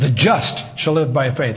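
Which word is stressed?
just. The stress is on the word just.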